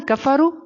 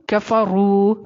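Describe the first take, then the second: First: کفرو ending on a short u; short final vowel. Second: کفرو with a long final roo; long final vowel. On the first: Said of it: "تو واو چھوٹ رہا ہے". (کفرو کا واو کھینچے بغیر) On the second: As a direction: stretch the last vowel of کفرو. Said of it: "واو کی ادائیگی بھی ہو رہی ہے". (کفرو کا واو کھینچ کر) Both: Shown as a demonstration.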